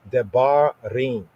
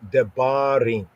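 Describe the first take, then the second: First: The middle consonant is a fully enunciated b. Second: The middle consonant is a fully enunciated b.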